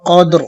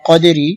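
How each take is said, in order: First: The word ends on a bare 'r' sound. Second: The word ends with a short 'ri' sound. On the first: The reading stops at this word. "অফের সময় র সাকিন হয়ে যাবে এবং উচ্চারণ হবে কদ্র" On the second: The reading continues without stopping. "এখানে কলকলা করতে হবে রাজির রি"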